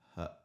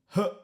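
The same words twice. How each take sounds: First: A light grunt with much less force. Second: A heavy, harsh grunt with strong force. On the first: The speaker calls it right. "trying to lighten that mechanism as you're going through" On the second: The speaker calls it wrong. "That's obviously quite heavy and quite harsh"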